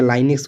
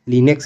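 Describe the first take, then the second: First: The first syllable has a long 'ai' vowel. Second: The first syllable has a short 'i' vowel. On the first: "कुछ लोग लाइनक्स भी बोलते हैं" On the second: "कुछ लोग इसको लिनक्स भी बोलते हैं"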